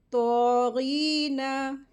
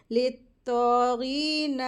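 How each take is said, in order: First: तो गीना with a long ee and a short, quick na; correct recitation. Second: ले तो गीना with the nun of गीना drawn out too long; wrong recitation. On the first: Teacher then shows the right way to read तो गीना. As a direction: recite तो गीना, hold the ee, clip the nun. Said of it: "इसको जल्दी पढ़ेंगे". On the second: Teacher imitates the common mistake in ले तो गीना. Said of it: "तो ये wrong है". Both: Shown as a demonstration.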